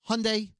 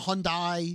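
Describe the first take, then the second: First: The word rhymes with Sunday. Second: The word does not rhyme with Sunday. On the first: The speaker calls it right. "Hyundai like Sunday" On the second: The speaker calls it wrong. "It's not a Hyundai"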